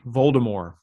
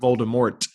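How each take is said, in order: First: The word ends without a T sound. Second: The word ends with a T sound. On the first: The speaker calls it right. "it's a French pronunciation. I believe J.K. Rowling actually said that you say Voldemort" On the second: The speaker calls it wrong. "Not Voldemort"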